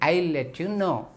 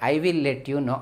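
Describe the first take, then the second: First: 'I will' is shortened to one syllable. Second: 'I will' is said as two full words. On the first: The speaker calls it right. "ఇంగ్లీష్కి కూడా ఒక rhythm ఉంటుంది, ఆ రిధంలోనే మనం మాట్లాడి" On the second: The speaker calls it wrong. "కానీ వాళ్ళు అలా ఐ విల్ let you know అని ఎవరు ఇంగ్లీష్ మాట్లాడే వాళ్ళు మాట్లాడరు"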